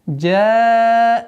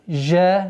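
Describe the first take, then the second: First: It starts with a hard affricate 'dj' sound. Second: It starts with a soft fricative 'zh' sound. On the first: The speaker calls it right. "резкое произношение джим" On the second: The speaker calls it wrong. "не жа"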